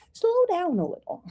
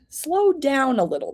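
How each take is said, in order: First: Playfully soothing, high-pitched and lighter; playful slowing down. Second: Said in the usual way. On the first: Shown as a demonstration. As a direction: stretch it out high, sliding down. Repeats card's words playfully, laughs after.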